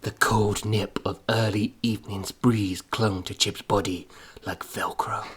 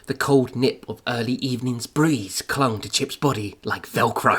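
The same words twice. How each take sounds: First: It is read in a deep, dramatic voiceover voice. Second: It is read in a plain, ordinary voice.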